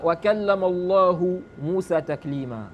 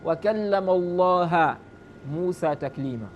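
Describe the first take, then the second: First: Allahu said with a final u; Allahu, the name ending in u as subject; correct Arabic reading. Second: Allaha said with a final a instead of u; Allaha, ending in a as object; deliberately mistaken Allaha with an a ending; wrong vowel ending. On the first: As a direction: Allahu pronounced with a clear u ending. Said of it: "Là, tu as changé quoi?". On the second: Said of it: "Tu dis c'est plutôt". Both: Shown as a demonstration.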